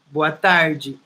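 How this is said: The R sounds like the English R in door.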